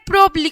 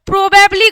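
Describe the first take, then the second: First: The word is shortened to two syllables. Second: The word is said in full with three syllables. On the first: "প্রবাবলিকে ছোট করে প্রবলি করলাম" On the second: "প্রবাবলি কথাটা"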